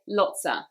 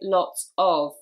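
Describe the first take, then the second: First: The word 'of' is reduced to a weak 'a'. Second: The word 'of' is said fully and separately. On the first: "we say lotsa" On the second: "we don't say lots of"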